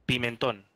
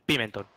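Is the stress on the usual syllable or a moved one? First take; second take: usual; moved. First: The stress falls on its usual syllable. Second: The stress falls on a different syllable. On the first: It names the spice. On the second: It is an elf's name. "le cambian la sílaba tónica"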